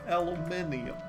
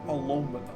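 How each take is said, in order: First: The word is said with five syllables. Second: The word is said with four syllables. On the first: "the correct term is aluminium" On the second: "aluminum is more of an American thing"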